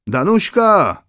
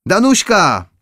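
First: Pitched-up call across the room. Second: Calling again. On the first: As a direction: call the girl's name from afar, lightly. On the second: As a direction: call her name once more, a touch more insistent. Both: A narrator's reading. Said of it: "zawołała księżna".

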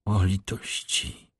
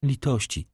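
First: Slow, soft, drawn-out plea; a hushed lament of a desperate girl; pleading cry. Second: The plea rises in despair; a higher, breaking appeal for pity; higher pleading cry. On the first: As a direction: beg for pity, slowly and softly. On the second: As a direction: repeat the plea higher, falling away. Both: A narrator's reading. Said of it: "zawołała".

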